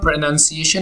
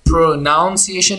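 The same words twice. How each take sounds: First: The second syllable sounds like "nun". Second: The second syllable sounds like "noun". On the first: The speaker calls it right. "होगा" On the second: The speaker calls it wrong. "नहीं होगा"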